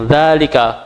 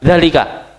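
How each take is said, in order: First: Dzalika with the first syllable held long, dzaa-lika; dzalika, correct long dzaa; long dza. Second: Dzalika with a clipped short first vowel, dza-lika; dzalika, mistaken short dza. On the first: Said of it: "Jadi bacanya panjang". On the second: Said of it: "bukan dzalika". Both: Shown as a demonstration.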